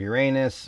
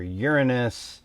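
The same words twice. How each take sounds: First: Uranus as your-AY-nus; first pronunciation variant. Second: Uranus as YOUR-uh-nus; second pronunciation variant. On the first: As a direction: stress the middle of Uranus, "AY". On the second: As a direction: stress the first syllable of Uranus. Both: Shown as a demonstration. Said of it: "a whole nother pronunciation thing".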